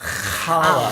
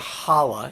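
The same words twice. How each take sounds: First: It starts with a rasping sound from the throat. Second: It starts with a plain, light h sound. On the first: The speaker calls it right. "you got to bring it out the back of your throat" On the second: The speaker calls it wrong. "It's not holla"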